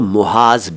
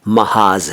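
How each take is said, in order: First: The first syllable has a 'u' vowel. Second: The first syllable has an 'a' vowel. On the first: The speaker calls it wrong. "कुछ लोग इसको मुहाज भी कह देते हैं" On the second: The speaker calls it right. "लेकिन ये महाज है"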